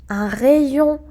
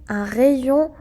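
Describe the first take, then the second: Both takes have the same delivery.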